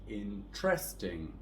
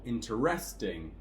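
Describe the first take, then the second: First: The stress is on the second syllable. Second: The stress is on the third syllable. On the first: "with a stress on the second syllable" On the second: "on the third one"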